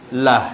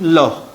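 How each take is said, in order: First: The syllable is light, with a bright vowel. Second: The syllable is heavy, with a dark vowel. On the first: A vowel below comes before the word. "dia bunyi lah, nipis" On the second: A vowel on top or in front comes before the word. "bunyi loh, tebal"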